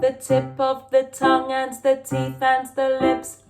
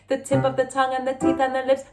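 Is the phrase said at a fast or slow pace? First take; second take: slow; fast. First: It is said at a slow, careful pace. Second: It is said at a fast, quick pace.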